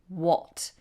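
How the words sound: It is said with a British accent. "in British English we say what"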